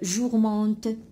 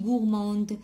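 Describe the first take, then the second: First: The word begins with a soft j sound. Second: The word begins with a hard g sound. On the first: The speaker calls it wrong. "un autre élève qui a dit" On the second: The speaker calls it right. "le G devant le O se prononce goût"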